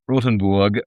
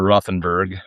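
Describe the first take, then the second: First: The name is said with a German pronunciation. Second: The name is said with an American pronunciation.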